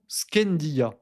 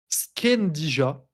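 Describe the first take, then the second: First: It is said in a plain, simplified way. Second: It is said in an exaggerated French way. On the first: "de manière simple" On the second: "je vais le dire à la bonne franchouillarde"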